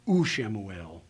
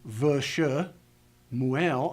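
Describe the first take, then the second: First: It begins with an oo vowel sound. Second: It begins with a v consonant cluster. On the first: The speaker calls it right. "So they use the oo to help transition into the word" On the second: The speaker calls it wrong. "I don't say vsh"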